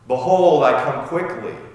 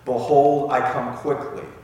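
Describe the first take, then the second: First: It is said a little louder. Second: It is said at normal volume.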